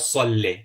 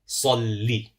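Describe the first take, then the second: First: The final vowel is an open eh sound. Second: The final vowel is a sharp ee sound. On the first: The speaker calls it wrong. "It's not salle" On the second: The speaker calls it right. "with the kasra it's a sharp downward movement"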